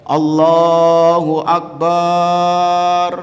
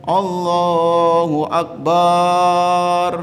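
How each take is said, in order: No difference in how they are said.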